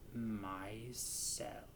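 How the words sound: It is said in a deep, low voice.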